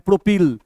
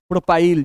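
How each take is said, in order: First: The last syllable sounds like 'ill'. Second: The last syllable sounds like 'isle'. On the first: This is the actual pronunciation. The speaker calls it right. "जबकि है प्रोपिल" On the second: This is the common local way of saying it. The speaker calls it wrong. "हम लोग कैसे बोलते हैं"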